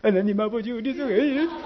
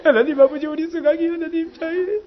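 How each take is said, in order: First: Quiet, earnest prayer voice; imitating the deacon's gentle prayer tone, a little softer. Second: Higher, pressing prayer voice; the fired-up prayer tone, pitched higher. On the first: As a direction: pray softly for the child. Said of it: "기도 톤이 있어요". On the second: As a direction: pray with heat rising. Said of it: "열받으면 그 딱 하는 그 톤이 있어요". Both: Shown as a demonstration.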